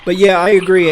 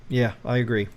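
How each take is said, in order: First: Emphatic agreement. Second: Said in the usual way. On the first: Real, not acted. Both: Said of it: "I agree with your statement one hundred percent".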